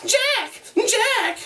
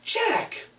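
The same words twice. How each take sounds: First: High mocking echo; mock his call bitterly; bitter mimicry. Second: High sharp call. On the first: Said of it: "in bitter mimicry". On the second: Acted. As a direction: call his name sharply. Ralph calls Jack.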